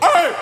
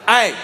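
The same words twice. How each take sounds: First: The voice cracks in an exasperated yell. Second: The voice stays steady and controlled.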